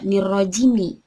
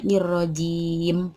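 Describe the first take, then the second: First: The word ends with a short i vowel. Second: The word ends on a bare consonant. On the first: The speaker calls it wrong. "tidak nirrojimi" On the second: The speaker calls it right. "tapi dibacanya nirrojim, disukun"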